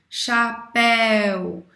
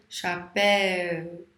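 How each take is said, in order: First: Chapéu drawn out slowly, the É strong and the U weak; chapéu slow and loud, with the É leaning over the U; slow demo word. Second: Chapéu drawn out slowly, leaning on the É; slow demo word. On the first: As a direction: stretch chapéu so the É clearly outweighs the U. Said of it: "O mais forte é o E e não o U". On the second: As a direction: stretch Chapéu so the É is heard over the U. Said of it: "Você se escutou?". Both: Shown as a demonstration.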